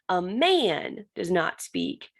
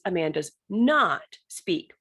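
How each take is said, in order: First: The stress is on the word man. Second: The stress is on the word not.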